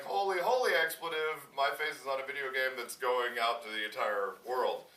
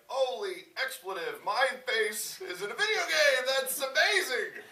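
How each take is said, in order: First: Loud, higher, sinking as it goes; acted overwhelmed realization; mock dawning alarm. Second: Loud, very high, stretched-out squeal; hammed-up excitement. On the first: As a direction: start loud, then sink as it hits you. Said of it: "and then you're like". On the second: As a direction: shout it with overjoyed, drawn-out amazement. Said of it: "your first reaction is like".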